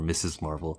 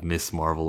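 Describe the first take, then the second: First: The first word is said with two syllables. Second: The first word is said with a hissing s. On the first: "or Missus Marvel" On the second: "instead of Miss Marvel"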